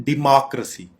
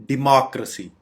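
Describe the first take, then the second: The two takes are said the same way.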